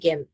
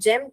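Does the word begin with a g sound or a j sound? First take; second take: g sound; j sound. First: The word begins with a hard g sound. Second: The word begins with a soft j sound. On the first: The speaker calls it wrong. "ना कि गेम" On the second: The speaker calls it right. "यहाँ पर हम इसे जेम कहते हैं"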